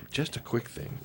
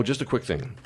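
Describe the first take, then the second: First: Whispered aside. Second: Said in the usual way. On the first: Shown as a demonstration.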